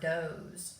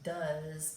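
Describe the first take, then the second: First: The word is said the way its spelling suggests. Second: The word is said with its real spoken sound. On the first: The speaker calls it wrong. "This looks like the word does" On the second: The speaker calls it right. "but it really sounds like does"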